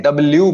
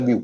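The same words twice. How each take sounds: First: W said double-yu, the L fully sounded. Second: W said dab-yu, no L at all; W without L. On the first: Teacher quoting Indian habit, W with L. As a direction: pronounce a clear L in W. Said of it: "ल की आवाज नहीं होती है". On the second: Teacher giving the correction, W without L. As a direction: slowly say W, skipping the L. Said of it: "actually it's". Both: Shown as a demonstration.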